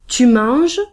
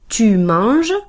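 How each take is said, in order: No difference in how they are said.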